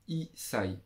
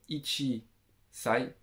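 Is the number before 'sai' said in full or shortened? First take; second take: shortened; full. First: The number is shortened and runs into 'sai'. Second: The number is said in full as 'ichi'. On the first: The speaker calls it right. "on va dire i sai" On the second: The speaker calls it wrong. "on va pas dire ichi sai"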